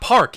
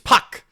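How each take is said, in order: First: The name is said with an R sound. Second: The name is said without an R sound. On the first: The speaker calls it wrong. "it's not park" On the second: The speaker calls it right. "It's puck"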